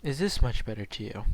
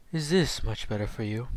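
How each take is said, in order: First: Said in the usual way. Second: Deep, calm, whispery voice; low and entrancing, breathy; deep calm Naruto voice. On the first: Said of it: "that's more like mine". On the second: Shown as a demonstration. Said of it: "imagine him having a fucking deep voice".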